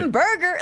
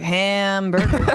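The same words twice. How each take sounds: First: The word is said with lively, committed energy. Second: The word is said flatly with little energy. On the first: The speaker calls it right. "you got to get into it" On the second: The speaker calls it wrong. "You can't just be like"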